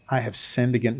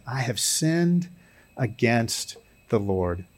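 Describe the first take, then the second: First: Said in the usual way. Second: Slow, soft stress on "sinned" and "against the Lord". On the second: Shown as a demonstration. David's confession to Nathan, slowly stressing "sinned" and "the Lord". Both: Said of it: "not just I have sinned".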